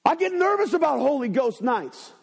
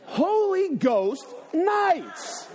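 First: Said in the usual way. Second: Holy Ghost nights drawn out very slowly, pitched up with a laugh; higher, laughing, stretched-out repeat; slow mocking repeat. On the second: Shown as a demonstration. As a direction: echo their words back slowly, amused. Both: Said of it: "Listen to what you just said".

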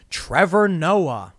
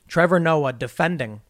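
First: Names Trevor Noah very slowly; slow drawn-out name. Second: Said in the usual way. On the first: Real, not acted. Reading the headline, slowly drawing out Trevor Noah. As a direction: drags out Trevor Noah syllable by syllable. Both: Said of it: "I'm not gonna say that stupid word".

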